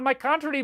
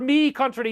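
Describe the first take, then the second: First: The word before country is pronounced 'my'. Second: The word before country is pronounced 'me'.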